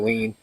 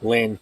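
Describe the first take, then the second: First: The name is read the way it looks in English. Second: The name is said the way it sounds in Tagalog. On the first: The speaker calls it wrong. "I still call her Lean. That's how it looks in American" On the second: The speaker calls it right. "But it's actually Lynn. That's how you pronounce it in Tagalog"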